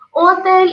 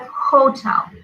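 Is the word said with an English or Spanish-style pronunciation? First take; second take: Spanish-style; English. First: It is pronounced in a Spanish-style way. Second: It is pronounced in an English way. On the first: The speaker calls it wrong. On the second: The speaker calls it right.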